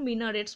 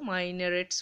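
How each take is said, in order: First: The first vowel is short, like 'min'. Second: The first vowel is long, like 'mine'. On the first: "এইটার উচ্চারণ মিনারেটস বলতে পারো" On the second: "মাইনারেটস বলতে পারো"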